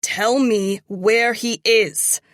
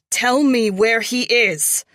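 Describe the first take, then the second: First: Slow, loud menacing demand. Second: Screamed, higher and louder; screaming. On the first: Acted. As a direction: drag it out as a threat. Interrogation, demand repeated. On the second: A narrator's reading. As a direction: scream the demand. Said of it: "I scream".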